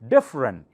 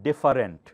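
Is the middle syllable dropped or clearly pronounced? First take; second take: dropped; pronounced. First: The middle syllable is dropped, giving two syllables. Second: All three syllables are pronounced clearly. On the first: The speaker calls it right. "Some letters are silent" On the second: The speaker calls it wrong. "not different, not that clearly"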